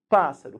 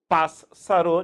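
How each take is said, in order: First: The two s letters make one s sound. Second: The two s letters are sounded separately. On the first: The speaker calls it right. "A gente fala pássaro" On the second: The speaker calls it wrong. "ninguém pronuncia isso"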